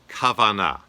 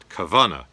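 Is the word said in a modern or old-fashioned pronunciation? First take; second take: modern; old-fashioned. First: The word is said in its modern pronunciation. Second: The word is said in an old-fashioned pronunciation.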